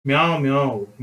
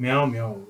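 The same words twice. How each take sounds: First: Mother cat meow. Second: Said in the usual way. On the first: Retold or imitated. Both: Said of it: "అని బోధించింది పెద్ద పిల్లి".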